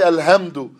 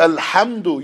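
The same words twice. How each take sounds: First: The h is a plain light breathy h. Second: The h is made deep in the throat. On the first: The speaker calls it wrong. "you don't say" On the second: The speaker calls it right. "So you say"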